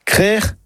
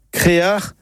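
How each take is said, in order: First: Crère set apart, one syllable with open e; careful Breton pronunciation. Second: Créar set apart, two syllables é-a; careful Breton pronunciation. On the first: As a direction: say crère distinctly, throaty ending. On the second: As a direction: say créar distinctly, throaty ending. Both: Shown as a demonstration. Teacher models it for listeners to practise, careful pronunciation. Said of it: "bien le prononcer".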